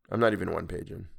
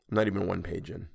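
Both takes have the same delivery.

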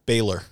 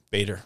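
First: Baylor with an L where the D belongs; mispronounced surname. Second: Said in the usual way. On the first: Retold or imitated. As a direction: say Baylor as BAY-ler. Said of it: "What did I say?". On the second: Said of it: "My last name".

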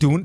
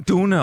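First: Dune said as one syllable, DOON; variant pronunciation. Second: Dune said as two syllables, DOO-neh; variant pronunciation. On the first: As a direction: say "Dune" with an oo, ending on the n. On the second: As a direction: say "Dune" with oo and a sounded final e. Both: Shown as a demonstration. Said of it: "udtalt på mange forskellige måder".

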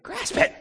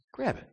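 First: Much higher, pushing squeal; urgent temptation. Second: Higher, a little softer coaxing; tempting whisper. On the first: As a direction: press harder, pitch leaping up. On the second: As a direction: coax him gently to grab it. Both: Retold or imitated. Tempter voice urging.

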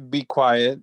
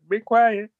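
First: Said in the usual way. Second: Mock stern shush. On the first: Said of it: "He was like, "Be quiet". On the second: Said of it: "He was like".

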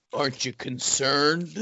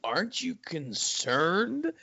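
First: A touch slow, mock-serious imitation of a friend; deadpan. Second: Deadpan. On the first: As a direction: quote him dead straight, lightly mocking. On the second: Retold or imitated. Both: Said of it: "deadpan and goes".

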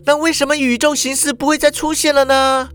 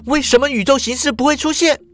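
First: Put-on high girl's voice, plain question; high voice, stress on 再; Shuhua asking. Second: Put-on high, fast pressing girl's voice; faster, more urgent repeat; Shuhua insisting. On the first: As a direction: ask it curiously. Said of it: "淑华就又问了". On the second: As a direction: fire the question at him. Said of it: "又问说". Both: A narrator's reading.

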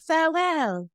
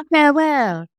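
First: High, soft mock English farewell; English accent. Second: High mock posh English farewell; English accent. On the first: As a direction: put on a posh English accent. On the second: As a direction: ham up a grand English goodbye. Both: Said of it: "Do it in your English accent".

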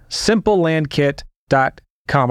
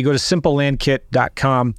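First: Slow, deliberate read of the address; slow, spelled-out address. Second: Said in the usual way. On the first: Shown as a demonstration. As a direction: lay out simple land kit dot com word by word. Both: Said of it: "Did I say it's free?".

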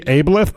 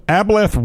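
First: "Ableth" with a long A, as in able; alternative pronunciation. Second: "Ableth" with a short A, as in apple; first pronunciation attempt. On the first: Host offers another guess, "Ableth" said AY-bleth. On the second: Host attempts a listener's nickname, "Ableth" said AB-leth. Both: Shown as a demonstration. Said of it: "It could be Ableth".

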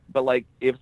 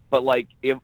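No difference in how they are said.

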